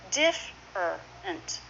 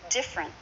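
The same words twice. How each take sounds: First: The word is said with three syllables. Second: The word is said with two syllables. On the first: The speaker calls it wrong. "not diff-er-ent" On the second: The speaker calls it right. "Two syllables, but different"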